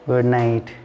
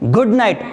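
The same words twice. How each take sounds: First: It is said weakly, without force. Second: It is said forcefully, with a strong voice. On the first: The speaker calls it wrong. "वो आपके ऐसा नहीं बोलेगा" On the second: The speaker calls it right. "आवाज में क्या है? दम है।"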